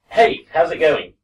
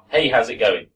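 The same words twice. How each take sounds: First: The sentence is said at a relaxed, slower pace. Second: The sentence is said quickly and run together. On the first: "this is how I'd say this sentence" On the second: "if I said it quickly"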